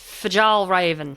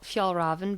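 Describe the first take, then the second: First: The name is said with an American pronunciation. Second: The name is said with a Swedish-style pronunciation. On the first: This is how Americans say the name. "probably in America it's Fjallraven" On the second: This is how the name is really said. "I think it's Fa- Fjallraven"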